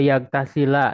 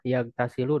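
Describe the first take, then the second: First: The word ends with a final a vowel. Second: The word ends with a final u vowel. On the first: The verb is in the subjunctive mood. "mansub fathah" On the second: The verb is in the nominative mood. "domah ya ini rofa atau marfu"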